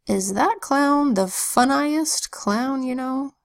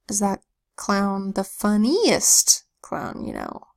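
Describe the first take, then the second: First: The i in funniest sounds like eye. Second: The i in funniest sounds like ee. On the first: The speaker calls it wrong. "You could try it with a long I sound" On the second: The speaker calls it right. "So we use the long E sound"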